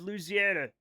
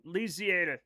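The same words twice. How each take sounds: First: "Louisiana" said loo-zee-ANN-uh; first pronunciation. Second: "Louisiana" said loo-zee-EN-uh; alternate pronunciation. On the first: Streamer comparing pronunciations, "Louisiana" as loo-zee-ANN-uh. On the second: Streamer comparing pronunciations, "Louisiana" as loo-zee-EN-uh. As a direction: closer "en" vowel in "Louisiana". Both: Shown as a demonstration. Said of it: "the pronunciation of Louisiana".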